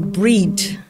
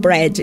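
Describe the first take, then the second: First: The vowel is a long 'ee' sound. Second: The vowel is a short 'eh' sound. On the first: "eles falam breed" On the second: "eles não falam bread"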